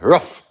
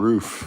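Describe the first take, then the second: First: The vowel is short, rhyming with 'dog bark'. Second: The vowel is long, as in 'moon'. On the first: This is how Americans say it. "How come Americans say rough like a dog?" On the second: This is how the rest of the world says it. "The rest of the world we say roof"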